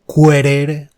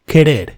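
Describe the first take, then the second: First: A u sound is heard after the k. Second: No u sound is heard after the k. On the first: The speaker calls it wrong. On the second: The speaker calls it right.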